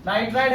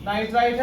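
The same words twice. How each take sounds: First: नाइट्राइड with a voiced D at the end; ending in a D sound. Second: नाइट्राइड with its last sound turned to a crisp T; ending in a T sound. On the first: Teacher separating similar ion names for students, final D sound. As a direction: say नाइट्राइड ending clearly in "aid". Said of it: "आईडी". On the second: Teacher separating similar ion names for students, final T sound. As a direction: say नाइट्राइड as "nai-trait", ending in T. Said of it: "आईटीई". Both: Shown as a demonstration.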